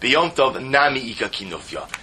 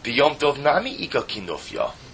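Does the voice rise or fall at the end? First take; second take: fall; rise. First: It is said as a statement, falling at the end. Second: It is said as a question, rising at the end.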